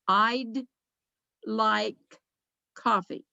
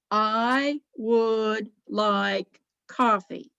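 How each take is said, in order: First: "Would" is contracted to a barely heard d. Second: The word "would" is said in full. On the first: "Because you may not have heard the D" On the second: "What they are saying is, I'd. I would like coffee"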